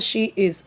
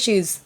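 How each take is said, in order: First: Said as two full, separate words. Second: Said as one short contracted word. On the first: "जैसे शी इज़ होता है ना" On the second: "पर हम बोलते हैं"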